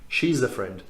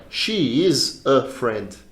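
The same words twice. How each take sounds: First: "She is a friend." with "is a" as "iza"; linked as one sound. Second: "She... is... a... friend", very slow; stopping between words. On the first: Teacher showing how people really say it, linked. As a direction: run "is a" into one word. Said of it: "é um som só". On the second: Teacher showing what nobody says, stopping each word. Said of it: "Não se fala parando assim". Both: Shown as a demonstration.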